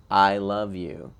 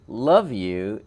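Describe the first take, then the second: First: "I love you" slow and firm, falling at the end; deliberate, centered. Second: "love you" with a punched, louder "love"; casual text-message hug. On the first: Telling someone who needs to know they are loved, "I love you" deliberate. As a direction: say "I love you" louder and unhurried. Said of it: "is more deliberate, more centered". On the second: A quick hug by text, "love you" casual and punchy. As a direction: toss off "love you" with a lift on "love". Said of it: "almost like a text message hug". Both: Shown as a demonstration.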